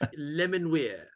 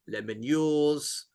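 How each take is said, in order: First: The name ends with a plain 'weer' sound. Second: The name ends with a 'yours' sound. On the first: The speaker calls it right. "how I pronounce it. And and I, I think that's right" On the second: The speaker calls it wrong. "it's definitely not that"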